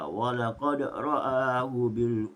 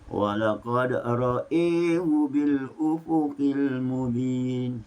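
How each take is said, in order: First: Both vowels are said with a plain open 'a'. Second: Only the second vowel leans toward 'e'. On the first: "Itulah bacaan Hafs" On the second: "hanya Hamzah saja dibaca secara imalah. Mana Ra dibaca secara takhfif fathah"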